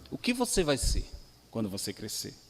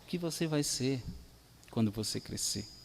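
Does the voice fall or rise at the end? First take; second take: rise; fall. First: It is said as a question, rising. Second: It is said as a statement, falling. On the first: It asks what the listener will become. "pode ser uma interrogação" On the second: It tells the listener what they will become. "Ou ele afirma"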